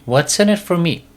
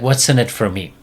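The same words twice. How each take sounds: First: Higher, whinier repeat of the dog's demand; bratty dog whine. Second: A hint of a bratty dog asking; mildly sulky dog voice, barely put on; lightly voiced dog. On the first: Retold or imitated. Dog presses owner for a reward, higher and whinier. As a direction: push the pitch up on the second ask. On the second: Dog asks owner what it gets, lightly voiced bratty. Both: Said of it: "The dog's like".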